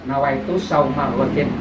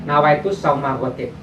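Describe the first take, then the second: The two takes are said the same way.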